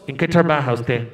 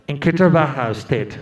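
First: Low, deliberate official question; American officer. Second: Low, deliberate officer voice; a gringo official asking flatly; American officer. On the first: Officer repeats his question to the woman, low and deliberate. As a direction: drop low and ask it like a bored clerk. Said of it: "Después de preguntarle un montón". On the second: Visa officer asks the applicant, low and deliberate. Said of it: "el hombre le pregunta". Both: Retold or imitated.

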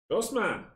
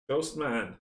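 First: Excited. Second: Said in the usual way. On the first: Real, not acted. Repeating the monster name louder.

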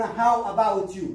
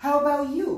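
First: Loud, slow How about you؟ like an American film; American movie-style question. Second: Quick, high, loud "How about you؟" with a rising end; snappy American-film question; American style. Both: Shown as a demonstration. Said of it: "في الأفلام الأمريكية لا يقولون".

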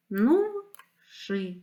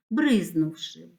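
First: "бризнувши" slowly as бриз, нув, ши; split into syllables. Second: Said in the usual way. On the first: Shown as a demonstration. Teacher dividing a word for pupils, "бризнувши" syllable by syllable. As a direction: clear gaps between the three syllables of "бризнувши". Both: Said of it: "слова на склади".

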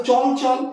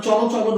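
First: চল চল ending on l, no vowel after; closed consonant ending. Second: চলো চলো with an open o closing each word; final O ending. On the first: Teacher quoting the word many say, চল without final o. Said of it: "ওটা চলো চলো নয় কেন?". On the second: Teacher asking why it is not said with final o. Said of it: "ওটি চলো চলো নয়". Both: Shown as a demonstration.

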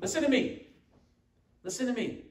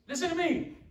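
First: A hint of a nagging mom, higher; lightly voiced mother calling her kids to listen; imitating a mom. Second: Much higher put-on grumbling grandpa voice; imitating grandpa. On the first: Preacher to congregation, lightly imitating a nagging mom. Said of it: "doesn't that sound like parents, like a mom". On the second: Preacher to congregation, mock grandpa scolding the kids, much higher. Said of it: "Sounds like grandpa every day dealing with those kids".

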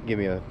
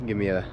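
No difference in how they are said.

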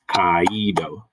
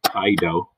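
First: "kaido" stretched slowly into ka-EE-do; drawn-out "kaido", a and accented i kept apart; three syllables. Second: "kaido" said KAI-do, first vowels as one diphthong; two syllables. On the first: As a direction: lean on a separate ee in the middle of "kaido". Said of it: "have to be in separate syllables". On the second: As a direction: say "kaido" in two beats, rhyming its start with "eye". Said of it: "which is two syllables". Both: Shown as a demonstration.

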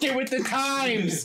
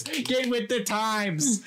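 First: Said in the usual way. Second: Drawn-out, slow. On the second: Pretend. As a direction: stretch each word slowly.

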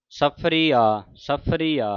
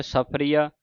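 First: ਸਫਰੀਆ as saph-aree, aa; correct pronunciation demo. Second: Said in the usual way. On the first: Shown as a demonstration. Teacher showing how to recite it, ਸਫਰੀਆ with separate aa. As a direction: hold the ee of ਸਫਰੀਆ, then a separate aa. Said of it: "ਇਸ ਤਰ੍ਹਾਂ ਉਚਾਰਨ ਕਰਨਾ ਹੈ". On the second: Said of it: "ਐੜਾ ਜਿਹੜਾ ਵੱਖਰਾ ਲਾ ਦੇਣਾ".

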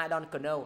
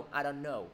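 First: KNOW as "kuh-no" in "I don't know"; K wrongly sounded. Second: KNOW as plain "no"; silent K. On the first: Teacher showing a mistaken reading, KNOW as "kuh-no". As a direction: put a k syllable before KNOW. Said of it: "Nó giống như dạng là". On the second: Teacher giving the proper reading, KNOW with silent k. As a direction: go straight to the n in KNOW. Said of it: "gọi là K câm". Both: Shown as a demonstration.

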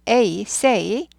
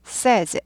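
First: "A, say" with the long "ay" glide; say with AY vowel. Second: "says" with a short "e", no glide; says pronounced SEZ. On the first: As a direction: sound out "A", then "say" with the same "ay". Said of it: "A, A 발음이죠". (A, say를 "에이, 세이"로 길게 발음) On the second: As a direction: model "says" as "sez" to contrast with the "ay" of say. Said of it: "에, 에로 바뀌어요". (says를 "세이즈"가 아닌 "세즈"로 발음) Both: Shown as a demonstration.

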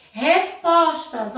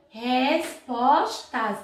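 First: Said in the usual way. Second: "Respostas" very slowly as res-pos-tas; split into syllables. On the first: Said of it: "na hora de separar as sílabas". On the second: Shown as a demonstration. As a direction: say "Respostas" syllable by syllable, gaps between. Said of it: "o S separou do P".

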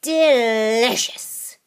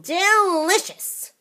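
First: Slow, drawn-out relish; savoring old witch. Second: Higher, slow gleeful relish; gleeful old witch. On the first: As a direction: savor it like a greedy hag. Grandma savoring again. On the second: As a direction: squeal it with greedy delight. First take of delicious. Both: Acted.

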